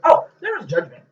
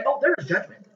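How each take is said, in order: First: A touch louder daughter impression; quoting daughter. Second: Lightly voiced daughter, high; a hint of the daughter's voice; quoting daughter. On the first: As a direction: lightly mimic the daughter again. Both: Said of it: "what did my daughter say".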